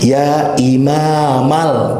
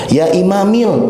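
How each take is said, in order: First: The word ends in the vowel a. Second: The word ends in the vowel i. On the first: The speaker calls it right. "kedah fathah imamal" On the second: The speaker calls it wrong. "dengan kas kasroh"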